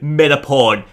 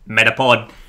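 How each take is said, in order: First: It is said in a normal speaking voice. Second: It is said in a put-on character voice.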